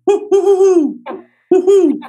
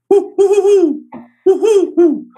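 First: High, loud owl hooting; female great horned owl hoots. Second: High, loud owl hooting; male great horned owl hoots. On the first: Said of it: "The female goes". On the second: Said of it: "And so the male goes". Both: Shown as a demonstration.

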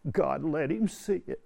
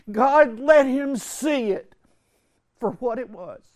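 First: Said in the usual way. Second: Much higher and louder, slow, ringing out; impassioned climax. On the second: Real, not acted. Retreat speaker crying out the story's climax, impassioned. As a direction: let it ring as the peak of the sermon.

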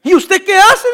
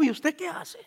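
First: "¿Y usted qué hace?" asked higher and louder, rising at the end; loud incredulous question. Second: "¿y usted qué hace?" asked softly and puzzled, voice dropping; hushed amazed question. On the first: Preacher repeating the man's question, loud and incredulous. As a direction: call it out in loud disbelief. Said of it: "preacher repeats the quote louder". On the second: Quoting a stunned man, a soft amazed question. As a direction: murmur it in disbelief. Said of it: "me dijo". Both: Retold or imitated.

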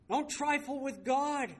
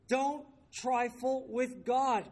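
First: High, emphatic preacher's warning in one run; raised-pitch pulpit admonition; stern warning. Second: High, word-by-word warning with pauses; drawn-out pulpit admonition; slow emphatic warning. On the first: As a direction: warn the congregation firmly, pitch raised. Preacher warns, then repeats it slowly. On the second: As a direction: space out each word for weight. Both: Real, not acted.

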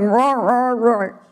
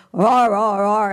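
First: Mock roar, pinched. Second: Open roar. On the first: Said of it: "the lion would not be happy and he'd bite you". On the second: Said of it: "and this is all open". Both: Shown as a demonstration.

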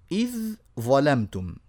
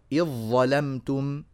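First: Slow, إذ held on dh, then ظلمتم separately; letters shown apart. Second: Slow إذ ظلمتم as one word, "iẓ-ẓalamtum"; from إذ straight into a long heavy ظ, no ذ; complete merging. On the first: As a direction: keep إذ distinct from ظلمتم. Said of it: "على طول طبعًا ندخلها". ("إذ" منفصلة عن "ظلمتم" بتمهّل) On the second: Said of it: "فيها إدخال وإدغام كامل". (إدغام كامل في "إذ ظلمتم") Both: Shown as a demonstration.

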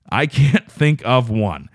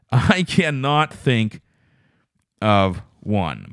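First: Said in the usual way. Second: Slow, with "cannot" spelled out and leaned on; stress on cannot. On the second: Shown as a demonstration. Admitting he has no eyeball story, stressing "cannot". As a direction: land hard on "cannot", drawn out. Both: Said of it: "repeats it with emphasis".

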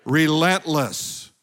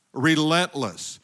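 First: Relentless stretched slow and strong; drawn-out Relentless; slow emphatic word. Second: Relentless said slowly again; slow echoed Relentless; congregation echo. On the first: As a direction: lead the crowd in a slow Relentless. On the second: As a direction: repeat Relentless slowly with them. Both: Shown as a demonstration. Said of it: "say the word relentless with me".

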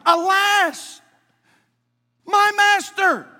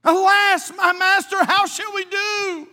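First: High, loud anguished cry; passionate cry. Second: High, loud, slow anguished plea; passionate cry. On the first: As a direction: cry out in alarm to your master. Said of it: "there's an exclamation point right there". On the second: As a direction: plead with your master in panic. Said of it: "He's saying this with some passion". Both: Acted.

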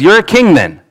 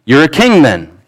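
First: King jumps high in mock disbelief; incredulous Pilate. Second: Said in the usual way. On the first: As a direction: toss it up like you can't believe it. Pilate questions Jesus, reread.

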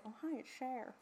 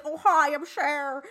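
First: Quiet, throwaway mock [name] voice; a soft hint of [name]; [name] impression. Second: Slow, loud mock [name] voice; a hammed-up [name] drawl; [name] impression. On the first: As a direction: toss off a [name] bit under the breath. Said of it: "I'm gonna say". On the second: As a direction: drag it out like Jujubee doing [name]. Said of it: "Jujubee doing a [name] impression".

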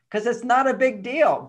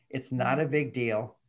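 First: "not" pushed up and louder in "it's not a big deal"; stress on not. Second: "It's not a big deal." said slowly, each word even and soft; slow, even emphasis. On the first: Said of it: "but her feelings are a big deal". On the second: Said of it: "That's a very important thing". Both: Shown as a demonstration.

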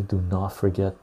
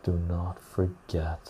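First: Said in the usual way. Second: Solemn quiet do not forget; slow soft repeat. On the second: Shown as a demonstration. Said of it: "repeat fading".

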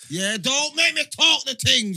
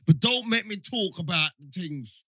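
First: "make" punched, louder and slower; stress on make, slow and loud. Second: Said in the usual way. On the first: Real, not acted. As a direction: hit "make" hard and drag the line.

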